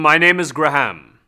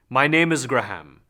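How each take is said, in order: First: It is said after a hum, resonant and forward. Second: It is said without a hum, plainer and less resonant.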